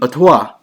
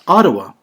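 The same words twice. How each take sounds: First: It is said with the original Ojibwe pronunciation. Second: It is said with the usual English pronunciation. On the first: The speaker calls it right. "in Ojibwe, it would be Ottawa" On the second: The speaker calls it wrong. "pronounces the city of Ottawa as Ottawa"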